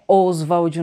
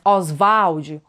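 First: The name is pronounced with English-like sounds. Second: The name is pronounced with Brazilian Portuguese sounds. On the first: The speaker calls it wrong. "Não é Oswald numa pronúncia mais inglesada" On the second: The speaker calls it right. "bem abrasileirada mesmo"

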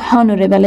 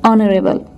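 First: The word begins with a sounded h. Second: The word begins with a silent h. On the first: The speaker calls it wrong. "it is not honorable" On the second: The speaker calls it right. "H is silent. it is honorable"

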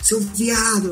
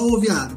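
First: It is said seriously, as an insult. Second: It is said playfully, as a joke.

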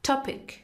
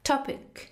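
Both takes have the same delivery.

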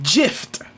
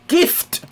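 First: The word begins with a J sound. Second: The word begins with a hard G sound. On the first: The speaker calls it wrong. "not gift" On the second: The speaker calls it right. "It's gift"

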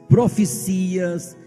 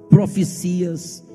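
Both takes have the same delivery.

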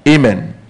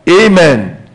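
First: It is said quietly. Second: It is said loudly.

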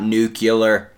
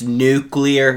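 First: The word is said as new-cue-lar. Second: The word is said as new-clear. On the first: The speaker calls it wrong. "not nuclear. You fuckers have been saying it wrong" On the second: The speaker calls it right. "it's nuclear"

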